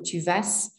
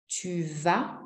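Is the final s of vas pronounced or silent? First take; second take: pronounced; silent. First: The final s sound is pronounced. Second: The final s sound is silent. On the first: The speaker calls it wrong. "We do not say ... tu vas" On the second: The speaker calls it right. "We don't pronounce the S's"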